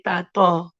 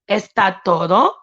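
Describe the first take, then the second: First: The two words are squeezed into two syllables. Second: Every syllable of both words is pronounced fully. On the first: "I say tato" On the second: "instead of saying"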